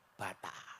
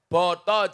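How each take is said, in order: First: Both vowels are A sounds. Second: Both vowels are O sounds. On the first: "kalau orang Ngapak A" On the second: "orang Jawa ke mayoritas menggunakan dialek O"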